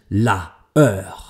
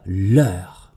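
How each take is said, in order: First: The vowel of la is kept before heure. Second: The vowel of la is dropped before heure. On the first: The speaker calls it wrong. "Also nicht la heure" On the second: The speaker calls it right. "sondern l'heure"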